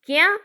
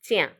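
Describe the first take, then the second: First: The word begins with a 'k' sound. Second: The word begins with a 'ch' sound. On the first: This is the standard form. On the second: This is the dialect form.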